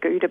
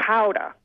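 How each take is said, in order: First: It starts with a plain hard G sound. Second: It starts with a throaty, breathy H-like sound. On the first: This is the speaker's own everyday way. "I don't say it like that myself. I do go with the Gouda" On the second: This is how the Dutch say it. "as I've seen the pronunciation guidelines"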